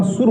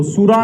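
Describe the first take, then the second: First: सुर ending on the r; सुर closed on r, without a vowel after it; correct form सुर. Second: सुरा with a long final aa; wrong form सुरा. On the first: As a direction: say सुर as one syllable, no final aa. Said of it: "सुर होता है". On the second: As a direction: say सुरा in two syllables, ending in an open aa. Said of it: "सुरा नहीं होता". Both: Shown as a demonstration.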